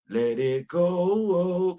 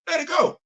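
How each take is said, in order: First: Slow sung phrase with GO held long. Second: Quick, high spoken exclamation; high-pitched insistence. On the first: Shown as a demonstration. Telling rival fans to drop Georgia, sung. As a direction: croon it like a song refrain. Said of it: "Kinda like the song Let It Snow". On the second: Real, not acted. Telling rival fans to drop Georgia, high insistent plea. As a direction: say it sharply high, dropping on GO.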